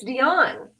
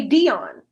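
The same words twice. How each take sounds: First: "Dion" said the speaker's own, natural way; correct pronunciation. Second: "Dion" drawn out slowly and louder, mimicking a mistake; imitated mispronunciation. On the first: Shown as a demonstration. Wife shows husband how her name is said, correct pronunciation. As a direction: say "Dion" as a plain, brisk correction. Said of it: "that's not how you say it". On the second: Wife mimics husband saying her name wrong, exaggerated mispronunciation. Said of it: "No, you say Dion".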